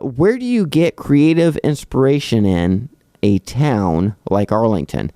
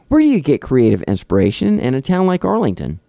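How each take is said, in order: First: It is read in a flat, robotic way. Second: It is read in a natural, expressive way.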